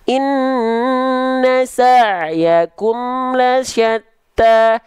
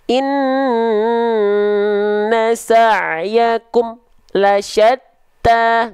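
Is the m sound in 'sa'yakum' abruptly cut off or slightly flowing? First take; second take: flowing; cut off. First: The m sound flows on slightly before continuing. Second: The m sound is held and abruptly cut off. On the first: The speaker calls it right. "Tapi dia emnya sedikit mengalir" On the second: The speaker calls it wrong. "nggak boleh dilafalkan tertahan, ya, atau terputus suaranya"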